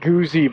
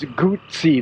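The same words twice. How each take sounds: First: The double Z is said as a Z sound. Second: The double Z is said as a TS sound. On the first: The speaker calls it wrong. "It's not Guzzi" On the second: The speaker calls it right. "like pizza. Two Z's are pronounced as a T"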